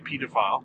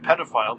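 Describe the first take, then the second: First: It is pronounced the British, English way. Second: It is pronounced the non-British, American way. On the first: "over in jolly old England, they say pedophile" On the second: "they don't say pedophile"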